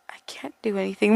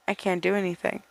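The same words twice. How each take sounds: First: Quick breathy whisper, faster. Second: Hushed despairing whisper. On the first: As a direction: rush it out in a whisper. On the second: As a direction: breathe it out in a whisper. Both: Acted.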